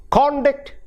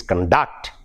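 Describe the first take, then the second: First: CON-duct, high on CON; "conduct" with CON punched and DUCT reduced; first-syllable stress. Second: Con-DUCT, weight on DUCT; second-syllable stress. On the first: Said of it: "if it is a adjective". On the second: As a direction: verb "conduct" with a light, reduced first syllable. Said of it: "when it is used as a verb". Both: Shown as a demonstration.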